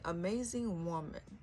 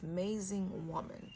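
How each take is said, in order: First: The first vowel of amazing is pronounced. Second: The first vowel of amazing is left off.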